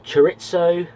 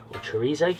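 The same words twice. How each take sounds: First: Chorizo said with a crisp "ts", cho-RIT-so; chorizo with TS sound. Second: Chorizo with a long EE and Z, chuh-REE-zo; chorizo with Z sound. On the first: Offering viewers one way to pronounce it, chorizo as cho-RIT-so. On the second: Asking viewers about the other way, chorizo as chuh-REE-zo. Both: Shown as a demonstration. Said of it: "what do you guys say".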